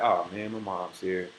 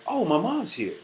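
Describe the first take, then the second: First: It sounds annoyed and reluctant. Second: It sounds happy and grateful.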